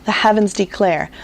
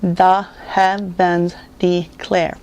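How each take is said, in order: First: Said in the usual way. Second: The heavens declare in five slow separate beats; very slow, chopped-up The heavens declare; syllable by syllable. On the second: Shown as a demonstration. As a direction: count out The heavens declare: the, hea, vens, de, clare. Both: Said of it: "Five syllables in that phrase".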